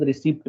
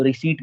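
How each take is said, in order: First: रिसिप्ट with the p sounded, ree-sipt; mock the common mistake, saying the p in रिसिप्ट; wrong p sounded. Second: रिसीट said ree-seet with the p silent; silent p receipt. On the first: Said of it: "but पी silent रखना है आपको". (रिसिप्ट में पी बोलकर, गलत उच्चारण) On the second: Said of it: "इसमें पी silent होता है". (रिसीट बिना पी की आवाज़ के, री-सीट) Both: Shown as a demonstration.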